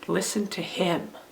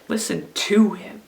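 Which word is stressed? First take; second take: him; to. First: The stress falls on the word 'him'. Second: The stress falls on the word 'to'. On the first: "what about if we stress the last word, the third word?" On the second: "what about if we stress the second word?"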